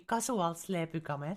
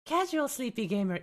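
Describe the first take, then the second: First: Thick Finnish reading of the English words; Finnish pronunciation. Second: Said in the usual way. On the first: Shown as a demonstration. Streamer showing a viewer their name said wrong, Finnish pronunciation. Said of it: "say it the Finnish way". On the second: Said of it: "say your name wrong".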